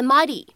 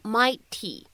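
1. t 是一个轻柔的闪音，像 d 一样。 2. t 是清晰饱满的 t 音。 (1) "在美式发音当中呢，可以读成a mighty a mighty" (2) "你不需要读成mighty"

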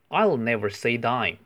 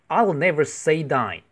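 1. 它用正常语速平淡地读。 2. 它带着强烈的感情和活力来读。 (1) "我先用正常的语速读一次。" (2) "可以再用感情读一次。"

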